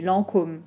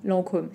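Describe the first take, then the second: Both takes have the same delivery.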